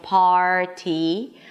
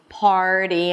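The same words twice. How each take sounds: First: The middle consonant is a clear, hard t. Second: The middle consonant sounds like a quick d. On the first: The speaker calls it wrong. "I'm not saying party" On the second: The speaker calls it right. "So it actually sounds like a D sound"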